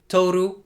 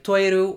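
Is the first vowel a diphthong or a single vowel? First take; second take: single vowel; diphthong. First: The first vowel is a plain o. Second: The first vowel is an oi diphthong. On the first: "instead of" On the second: "instances of oi replacing o"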